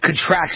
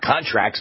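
First: The stress is on the second syllable. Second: The stress is on the first syllable. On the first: It means shrinks or goes down. The speaker calls it right. "but contracts as in goes down" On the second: It names agreements, the noun. The speaker calls it wrong. "not contracts"

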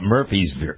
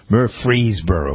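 First: The R sound in the name is dropped. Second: The R sound in the name is pronounced. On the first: The speaker calls it wrong. "Most people call it Murfreesboro" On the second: The speaker calls it right. "there's an R in there"

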